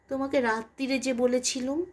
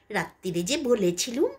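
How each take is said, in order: First: It is said plainly, without mockery. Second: It is said in a mocking, mimicking voice.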